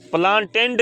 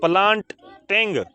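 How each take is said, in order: First: प्लांटेंड said with an -ed ending, as the mistake; the rejected ending प्लांटेंड; wrong form. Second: प्लांटिंग said slowly with a clear -ing ending; teacher slowly models प्लांटिंग with -ing; correct -ing form. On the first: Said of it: "प्लांटेंड नहीं". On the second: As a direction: stretch out प्लांटिंग, landing on the -ing. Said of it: "आईएनजी से". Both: Shown as a demonstration.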